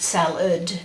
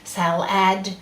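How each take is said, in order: First: The second vowel is reduced to a weak uh. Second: Every vowel is said fully and precisely. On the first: It is how people talk normally. The speaker calls it wrong. "not just salad because you can't spell uh" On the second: Each sound is kept clear to help spelling. The speaker calls it right. "say every syllable as it's spelt in your spelling voice"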